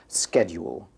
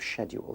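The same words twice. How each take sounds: First: The word begins with an 'sk' sound. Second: The word begins with an 'sh' sound. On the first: The speaker calls it right. "S K very big on my script" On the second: The speaker calls it wrong. "instead of"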